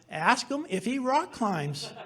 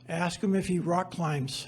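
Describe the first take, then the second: First: It is said at a moderate volume. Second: It is said quietly, almost under the breath.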